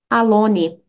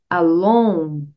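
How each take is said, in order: First: Alone is said with a Brazilian-style pronunciation. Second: Alone is said with a native English pronunciation. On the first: The speaker calls it wrong. "Muitos estudantes brasileiros de inglês dizem alone" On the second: The speaker calls it right. "Aqui a pronúncia é alone"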